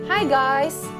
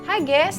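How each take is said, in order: First: The vowel in 'guys' is a glide like 'eye'. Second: The vowel in 'guys' is flat like 'gas'. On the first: The speaker calls it right. "Jadi sebenarnya itu hi guys" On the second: The speaker calls it wrong. "Jangan bilang hi guys ... Sebab dia bukan kompor gas"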